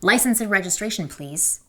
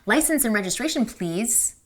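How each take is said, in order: First: The voice falls at the end. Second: The voice rises at the end.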